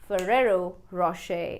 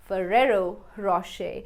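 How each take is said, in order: No difference in how they are said.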